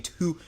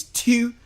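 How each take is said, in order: First: "two" as a Baltimore speaker says it, rising; imitated Baltimore "two". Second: "two" pitched high with a fronted "tew" vowel; mock the Baltimore "two" as a high "tew"; exaggerated Baltimore "two". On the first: New Yorker quoting how y'all say it, Baltimore "two". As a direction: mimic the Baltimore vowel in "two". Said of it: "the way y'all say two". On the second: New Yorker mocking Baltimore speech, high fronted "two". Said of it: "Y'all be saying two".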